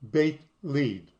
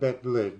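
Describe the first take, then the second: First: The first word has an 'ay' vowel. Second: The first word has a short 'eh' vowel. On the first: The speaker calls it right. "That's how it's pronounced" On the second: The speaker calls it wrong. "You would probably pronounce that Bet Lid"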